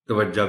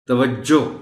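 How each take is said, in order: First: The word ends with an 'a' vowel. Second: The word ends with an 'o' vowel. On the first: The speaker calls it wrong. "मगर तवज्जा भी लोग पढ़ जाते हैं" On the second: The speaker calls it right. "तवज्जो दुरुस्त बोलने वाले लोग भी मौजूद हैं"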